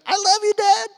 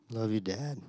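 First: High, loud, bursting with love; sincere joy. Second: Limp half-hearted love you; weak, limp. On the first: Excited son thanking dad for the movie. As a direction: gush it with all your heart. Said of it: "the most sincere". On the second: Forced kid mumbling thanks to dad. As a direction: say it like a dead fish hug, no feeling. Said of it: "very weak". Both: Retold or imitated.

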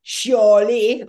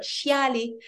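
First: "chiali" in a regional French accent, loud, rounded "shaw-lee"; speaker's own French accent. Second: "chiali" said "shah-lee", with an open front a; standard pronunciation. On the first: Explaining her way of saying it, loud accented French "shaw-lee". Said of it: "maybe the way I say it". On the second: Giving the word without her accent, open "shah-lee". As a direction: say "chiali" more neutrally, as "shah-lee", not "shaw-lee". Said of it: "that's the accent, but chiali". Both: Shown as a demonstration.

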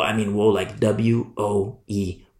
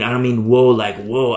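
First: W O E spelled letter by letter, slowly; spelled-out woe. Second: Said in the usual way. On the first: Shown as a demonstration. Preacher explaining woe to parents by spelling W O E slowly. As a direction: spell out W O E to weigh the word.

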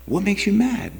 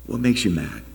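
First: "mad" swept up high in a big questioning rise. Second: Said in the usual way. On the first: Shown as a demonstration.

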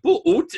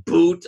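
First: "boot" split into "boo-oot"; two-syllable "boot". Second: Said in the usual way. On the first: Shown as a demonstration. Showing co-host the Southern way, two-syllable "boot". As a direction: stretch "boot" into two separate beats. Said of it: "you would think there's two syllables". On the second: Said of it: "And the same thing with pool".

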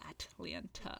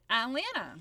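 First: "Atlanta" with both T's fully sounded; heavy, over-pronounced "At-lan-ta". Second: "Atlanta" as "A'lanna", both T's silent; T's dropped. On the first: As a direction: labour over each T in "Atlanta". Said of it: "it's so heavy if you say". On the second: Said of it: "you do not pronounce the T's". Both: Shown as a demonstration.

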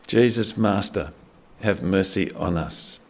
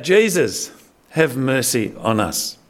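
First: A quiet, drawn-out beg for mercy; understated desperate begging; desperate plea. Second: Retold lepers' cry, raised but not a full yell; mock cry for help. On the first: Retold or imitated. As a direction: lower and softer, slowed, pleading. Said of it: "they just cry out for help". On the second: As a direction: call out to Jesus from a distance, half-acted. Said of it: "yell out".

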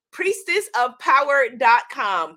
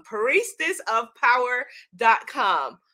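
First: Said in the usual way. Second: "Priestess of power dot com" slow and spaced out; slow emphatic repeat. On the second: Shown as a demonstration. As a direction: stretch "Priestess", then set "dot com" apart. Web address repeated slowly.

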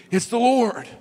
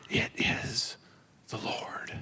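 First: Higher, louder blurt; excited exclamation. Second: Soft, hushed whisper; quiet awe. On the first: Impulsive Peter recognizing Jesus, excited exclamation. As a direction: Peter bursting out with it, eager. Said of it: "And then you have Peter". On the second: John telling Peter in a reverent whisper. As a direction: breathe it out in reverent wonder. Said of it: "it's this quiet, like, it's not yelling". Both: Retold or imitated.

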